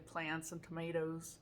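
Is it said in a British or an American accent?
American. It is said in an American accent.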